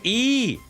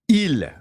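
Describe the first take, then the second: First: The word is a bare vowel with no L. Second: The word ends with a clear L sound. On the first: The speaker calls it right. "We gotta go fast" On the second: The speaker calls it wrong. "c'est long, là. That's long"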